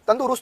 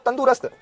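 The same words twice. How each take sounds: First: तंदुरुस्त with a short u in "ru"; correct form demonstrated. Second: तंदुरुस्त with a long oo and no second u; wrong form demonstrated. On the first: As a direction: say तंदुरुस्त as "tandu-rust". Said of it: "रू छोटा". (तंदुरुस्त में "रु" छोटा बोलें) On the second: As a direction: say तंदुरुस्त as "tandoo-rast". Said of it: "गलत होता है". (तंदुरुस्त को "तंदूरस्त" बोलें) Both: Shown as a demonstration.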